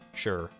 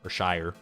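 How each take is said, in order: First: The syllable is said like 'sure', rhyming with 'fur'. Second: The syllable is said like 'shire', rhyming with 'fire'. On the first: "S H I R E, sure" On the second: "Or Shire, I guess"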